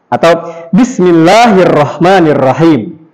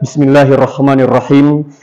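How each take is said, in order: First: The pitch rises and falls across the phrase. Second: The pitch stays level across the phrase. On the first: The speaker calls it wrong. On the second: The speaker calls it right.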